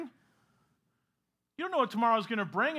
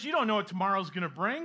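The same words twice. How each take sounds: First: Slower, weighted on know; slow emphatic repeat. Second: Said in the usual way. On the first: Shown as a demonstration. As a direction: lean into "know" and draw it out. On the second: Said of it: "repeated slower".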